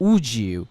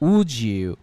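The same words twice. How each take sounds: First: The d and y blend into a j. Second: The same.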